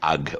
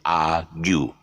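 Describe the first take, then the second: First: The word ends on a bare 'g' sound. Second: The word ends with a 'gyoo' sound. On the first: The speaker calls it wrong. "we thought that argue would be then arg" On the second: The speaker calls it right. "so it's not. It's argue"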